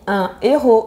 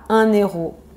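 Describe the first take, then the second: First: No n sound links un to héros. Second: An n sound links un to héros. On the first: The speaker calls it right. "on dit un héros" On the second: The speaker calls it wrong. "et pas un héros"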